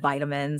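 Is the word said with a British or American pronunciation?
American. The word is said with an American pronunciation. "instead of vitamins"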